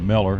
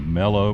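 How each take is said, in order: First: The word ends in an 'er' sound. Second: The word ends in an 'oh' sound. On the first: The speaker calls it wrong. "can't say it right" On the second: The speaker calls it right. "It's not E R, it's O W"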